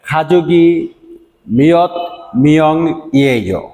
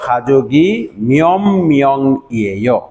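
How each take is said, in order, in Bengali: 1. বাক্যটি ধীরে, একটি একটি শব্দ করে পড়া হচ্ছে। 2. বাক্যটি দ্রুত, এক নিঃশ্বাসে পড়া হচ্ছে। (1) "আমি স্লোলি পড়লাম।" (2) "আমরা যদি একবারে সেন্টেন্সটা পড়তে চাই তাহলে এরকম বলবো"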